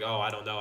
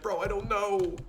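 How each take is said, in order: First: Low, offhand shrug; casual. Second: High, panicky voice; scared. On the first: Retold or imitated. Student answering the instructor casually. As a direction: say it like it doesn't matter. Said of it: "I was just like". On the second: Shown as a demonstration. Student answering the instructor in mock panic. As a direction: blurt it out scared. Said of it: "I didn't say it like that".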